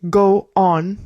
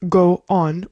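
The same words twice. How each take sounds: Both takes have the same delivery.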